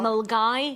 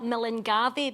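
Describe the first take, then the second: First: The name is said in its short local form. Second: The name is sounded out as it is spelled. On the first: "but we pronounce it" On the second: "It's spelt Millingavi"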